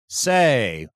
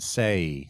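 First: The vowel is said more strongly and drawn out. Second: The vowel glides lightly into an ee sound. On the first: "a southerner would might say say, say, a little more strongly" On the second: "an American would say say as two vowels, A and a little bit of the letter E at the end"

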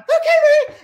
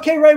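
First: It is said in a very high voice. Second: It is said in a normal voice.

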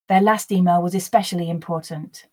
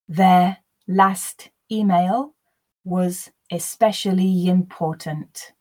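First: The sentence is read at a natural, faster pace. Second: The sentence is read slowly and deliberately. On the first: "Then I will repeat at a more natural pace" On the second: "The first time I'll read slowly for you to grasp the words"

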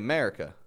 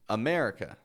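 First: The word starts directly with the 'm' sound. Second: The word starts with a short vowel before the 'm' sound. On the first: The speaker calls it wrong. "They'll just say America" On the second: The speaker calls it right. "getting the schwa in the beginning"

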